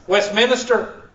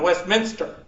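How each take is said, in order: First: An extra syllable is inserted in the middle. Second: No extra syllable is inserted in the middle. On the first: This is how local people say it. The speaker calls it wrong. "People call it Westminster like, like a preacher" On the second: This is how it is said in England. The speaker calls it right. "just like over there in England, Westminster. It doesn't have a dead syllable"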